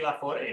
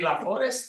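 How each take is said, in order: First: The name ends in a vowel, 'st' silent. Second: The final 'st' of the name is sounded. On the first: "La Forêt with the accent" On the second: "It's Forest"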